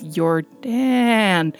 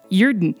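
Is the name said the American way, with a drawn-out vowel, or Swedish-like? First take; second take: drawn-out; Swedish-like. First: The second vowel is stretched out and emphasized. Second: The name is said with a Swedish-sounding lilt. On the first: "really emphasizing the double A there" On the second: "it sounds almost Swedish"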